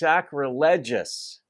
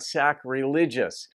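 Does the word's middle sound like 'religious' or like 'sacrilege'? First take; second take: sacrilege; religious. First: The middle sounds like the word sacrilege. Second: The middle sounds like the word religious. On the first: The speaker calls it right. "So it's sacrilegious, because this is the adjectival form of the word sacrilege" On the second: The speaker calls it wrong. "not sacrilegious"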